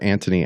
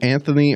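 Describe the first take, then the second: First: The middle consonant is a hard 't' sound. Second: The middle consonant is a soft 'th' sound. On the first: "is his name Anthony or Antony?" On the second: "is his name Anthony or Antony?"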